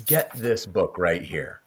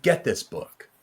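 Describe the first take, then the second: First: Said in the usual way. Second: Firm push on Get; urging. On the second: Real, not acted. Host urging listeners to buy the book, stress on get. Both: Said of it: "I encourage you so much".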